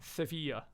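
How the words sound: The name is said with a Spanish pronunciation.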